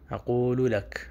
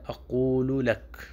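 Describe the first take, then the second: First: It has a q sound and full syllables. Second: It has a q sound and full syllables.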